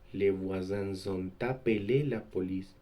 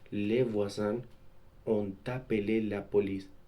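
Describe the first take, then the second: First: The s of voisins links as z into ont. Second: The s of voisins stays silent before ont. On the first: The speaker calls it wrong. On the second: The speaker calls it right. "Entre un groupe nominal sujet et le verbe"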